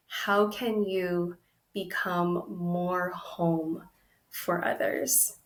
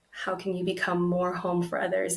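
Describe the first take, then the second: First: Slow, thoughtful question. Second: Said in the usual way. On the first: Shown as a demonstration. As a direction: let each word land slowly.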